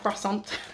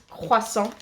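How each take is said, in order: First: The word gets an anglicized, non-French pronunciation. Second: The word gets a native French pronunciation. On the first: The speaker calls it wrong. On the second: The speaker calls it right.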